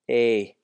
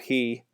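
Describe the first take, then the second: First: The word starts with a vowel, no h. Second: The word starts with an h sound. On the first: The speaker calls it right. "it's e" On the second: The speaker calls it wrong. "Not he"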